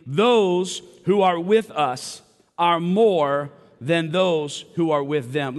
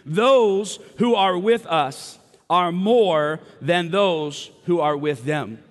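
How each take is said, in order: First: Said in the usual way. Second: Slow, emphatic, meaning every word; with conviction. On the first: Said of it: "Would you read that, that, that phrase with me". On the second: Shown as a demonstration. Preacher urging the congregation to mean it, emphatic. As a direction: say it like you truly believe it. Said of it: "Read it like you mean it".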